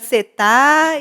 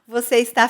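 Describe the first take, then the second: First: The verb is shortened to its last syllable. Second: The verb is said fully with both syllables.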